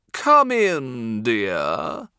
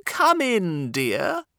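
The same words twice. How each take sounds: First: A purring wolf, louder, sweet-talking. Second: Put-on high, loud old granny voice; grandma. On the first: Acted. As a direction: purr it like a sly wolf. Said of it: "purred the Big Bad Wolf". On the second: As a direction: call out sweetly as grandma. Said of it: "said Grandma".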